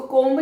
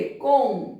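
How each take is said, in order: First: "कोम्ब" with the b sounded; wrong pronunciation. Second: "कोम" with a silent b; correct pronunciation. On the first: Teacher quotes the common mistake, wrong take. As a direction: say "कोम्ब" ending on a clear b. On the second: Teacher models the right word, correct take. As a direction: end "कोम" on the m, no b. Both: Shown as a demonstration. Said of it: "इसको कोम्ब नहीं बोलेंगे".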